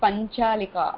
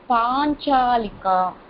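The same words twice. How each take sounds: First: The marked vowel is held short. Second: The marked vowel is held long. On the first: The speaker calls it wrong. "you are saying panchalika" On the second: The speaker calls it right. "I am saying panchalika. There is a line after that"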